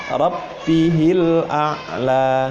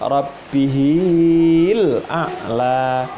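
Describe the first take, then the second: First: The vowel of 'hi' is kept short. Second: The vowel of 'hi' is lengthened. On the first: The speaker calls it right. "Yang betul adalah langsung" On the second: The speaker calls it wrong. "tidak boleh dibaca panjang, ... Ini salah"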